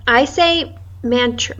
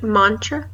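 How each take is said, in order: First: "mantra" with a flat a as in man; saying mantra. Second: "mantra" with a broad ah, like mahn-tra; saying mantra. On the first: Friend asks how to say it, "mantra" with the a of man. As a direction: mantra rhymes with "man-tra", short a. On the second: Friend compares pronunciations, "mantra" with ah sound. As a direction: open the first vowel: "mantra" as mahntra. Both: Shown as a demonstration. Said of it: "Is it mantra or is it mantra?".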